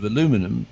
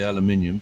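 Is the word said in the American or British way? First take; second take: American; British. First: It is said with four syllables, ending -luminum. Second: It is said with five syllables, ending -minium. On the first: "I'll give it the American pronunciation" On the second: "The Brits say aluminium"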